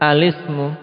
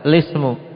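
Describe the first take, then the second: First: It opens with an 'a' vowel before the l. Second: It opens directly with an l and 'i'. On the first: "dengan memfathah hamzah wasalnya, kemudian apa? Mengkasrah lam, hakadha" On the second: "Hamzah wasalnya dibuang. Ibtida'nya dengan lam yang dikasrah, hakadha"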